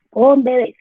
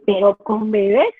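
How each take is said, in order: First: "Con bebés" louder, with a falling end and weight on "Con"; firm answer. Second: Slow, incredulous "¿Pero con bebés?" with a rising end on "bebés"; doubtful question. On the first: Real, not acted. Speaker answering the doubting parent, firm and emphatic. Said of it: "Antes pensábamos que el lenguaje importaba". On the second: Retold or imitated. Imagined parent doubting reading to babies, mildly incredulous. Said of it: "Entonces dice".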